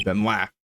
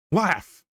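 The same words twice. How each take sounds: First: Said in the usual way. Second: High, falling exclamation; dramatic high-pitched command; exclaimed command. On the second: Acted. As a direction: order it in a raised, high voice. Repeated as acted command.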